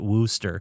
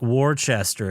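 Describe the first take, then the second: First: The name is said short, as 'Wooster'. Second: The name is said following its full spelling. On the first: "they pronounce it Wooster" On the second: "it's spelled like Worcester"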